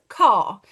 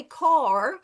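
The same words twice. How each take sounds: First: "Car" with no r sounded; king's accent. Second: "car" with the final r pronounced; r sounded. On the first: Teacher gives the speech sound king's version, "Car" without r. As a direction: say "Car" as an open "cah", firm and louder. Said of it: "The king says". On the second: Teacher shows the other accent's "car", r sounded. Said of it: "I can't hear the sounds k". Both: Shown as a demonstration.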